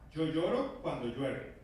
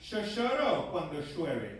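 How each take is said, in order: First: It is said in a general Spanish accent. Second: It is said in an Argentinian accent.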